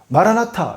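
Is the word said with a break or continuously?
continuous. The word is said smoothly without a break. Lord, please come. "연속해서 읽으면"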